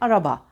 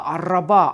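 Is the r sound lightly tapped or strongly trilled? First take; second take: lightly tapped; strongly trilled. First: The r is a single light, quick tap. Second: The r is trilled strongly and with force. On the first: The speaker calls it right. "Çok hafif titrer, minicik, şöyle bir vuruşçuk" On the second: The speaker calls it wrong. "Böyle demeyiz değil mi?"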